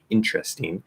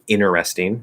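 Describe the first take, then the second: First: The t and r blend into ch. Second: The t after n is dropped completely. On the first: "I'd probably say interesting, it'd be a C H" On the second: "So instead of saying inter, you can say inner"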